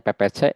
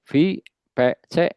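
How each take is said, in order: First: The first letter is pronounced as a P sound. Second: The first letter is pronounced as a V sound.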